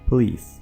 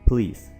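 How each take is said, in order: The two takes are said the same way.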